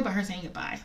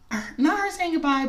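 First: Said in the usual way. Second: "not" hit high and loud, the rest falling away; stress on not. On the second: Real, not acted. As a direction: push "not" up hard before "her saying goodbye".

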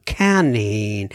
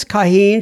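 First: "Kaneen" with an n opening the second syllable; name said Kaneen. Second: "Kaheen" with an h opening the second syllable; name said Kaheen. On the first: Host offering another guess at the name, "Kaneen" said slowly as ka-NEEN. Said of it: "or Kaneen". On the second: Host guessing at a listener's name, "Kaheen" said ka-HEEN. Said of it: "I think it's Kaheen". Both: Shown as a demonstration.

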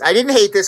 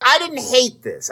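First: "hate" leaned on, falling off after it; stress on hate. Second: Said in the usual way. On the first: Shown as a demonstration. Reviewing the show for co-host, stress on "hate". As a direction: push the word "hate" in "I didn't hate this".

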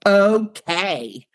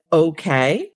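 First: "Okay" pitched high, then dropping firmly; exaggerated swoop down through "Okay"; big high start on "Okay", falling away; emphatic falling okay. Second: "Okay" with a rising, questioning end; tentative upturn on "Okay". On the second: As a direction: say "Okay" lightly, lifting at the end. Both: Shown as a demonstration. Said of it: "change the way we talk".

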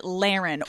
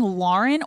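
First: Laren said as LAIR-en; nickname Laren. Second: Lauren said as LOR-en; Lauren with an OR first vowel; proper name Lauren. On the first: Host quoting fans' question, nickname Laren as LAIR-en. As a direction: Laren with an AIR first vowel. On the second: Host quoting fans' question, Lauren as LOR-en. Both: Shown as a demonstration. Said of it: "I call Lauren Laren".

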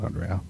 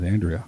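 First: Andrea with a broad ah, ahn-DRAY-uh, soft. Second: Andrea with a flat a, AN-dree-uh. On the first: Host corrects the name to ahn-DRAY-uh, quietly. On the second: Host slips on the listener's name, Andrea said AN-dree-uh. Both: Shown as a demonstration. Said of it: "I didn't mean to say that".

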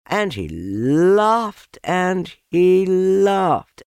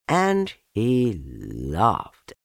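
First: High, loud, long-stretched "laughed"; swelling, drawn-out telling. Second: Very slow, stretched "laughed"; drawn-out telling. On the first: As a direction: let "laughed" soar and swell with glee. Narrator builds up the laughter. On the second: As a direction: linger long on "he laughed". Narrator draws out growing laughter. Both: A narrator's reading.

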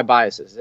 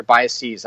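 First: "biases" with a short, unstressed last syllable; "biases" ending in a light "-siz"; usual plural pronunciation. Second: "biases" with a long "-seez" ending; "biases" slowed, last syllable rhyming with "seize"; alternative plural pronunciation. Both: Shown as a demonstration. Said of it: "which way you're supposed to say it".

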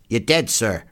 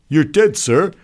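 First: Said in the usual way. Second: High, loud soldier's voice; enlisted man reporting. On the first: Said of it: "repeated the other". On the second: Acted. Enlisted man informing the doctor, high and loud. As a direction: pipe up loudly to an officer.

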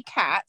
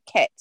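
First: Said in the usual way. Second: New Zealand accent, "kit" with a raised, tight vowel; Kiwi accent. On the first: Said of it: "So they don't say cat". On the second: Shown as a demonstration. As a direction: say "kit" as a Kiwi says cat, vowel near "ket". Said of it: "She would say kit".

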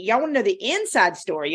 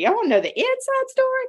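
First: Said in the usual way. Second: 1 high teasing squeal. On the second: Shown as a demonstration.

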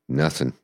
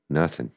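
No difference in how they are said.

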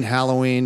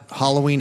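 First: Halloween starting like "pal"; short-a pronunciation. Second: Halloween starting like "hollow"; hollow pronunciation. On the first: Guest lists word variants, Halloween opening with short-a "HAL". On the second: Guest lists word variants, Halloween opening with "HOLL". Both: Shown as a demonstration. Contrasting two regional pronunciations.

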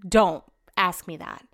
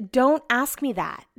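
First: Slow, lowered repeat of a warning; testy, deliberate, sinking retort; low warning. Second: Slow, deliberate warning; testy, drawn-out retort; irritated warning. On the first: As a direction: drop the pitch and space the words out. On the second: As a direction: warn him off word by word. Acted warning to her husband. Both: Retold or imitated.

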